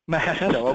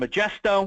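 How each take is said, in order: First: The middle consonant is an H sound. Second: The middle consonant is a J sound. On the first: The speaker calls it right. "that is right" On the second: The speaker calls it wrong. "which I may or may not be pronouncing correctly"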